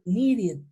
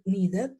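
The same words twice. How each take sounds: First: The ending sounds like 'id'. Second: The ending does not sound like 'id'. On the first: The speaker calls it right. "yo diría needed. It. I D. Va a sonar como una I D" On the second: The speaker calls it wrong. "ya no diría needed"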